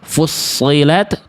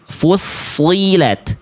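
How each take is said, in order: First: The vowel after s sounds unclear, like e. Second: The vowel after s is a clear i. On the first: The speaker calls it wrong. "jangan dibaca" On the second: The speaker calls it right.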